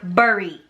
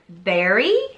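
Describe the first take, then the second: First: The vowel sounds like in 'burr', East Coast style. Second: The vowel sounds like in 'bear', Midwest style.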